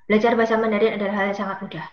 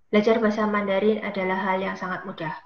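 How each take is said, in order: First: The sentence is spoken at a fast pace. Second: The sentence is spoken at a medium pace. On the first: "kecepatannya terus ditambah" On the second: "kecepatannya terus ditambah"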